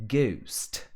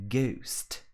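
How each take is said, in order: The two takes are said the same way.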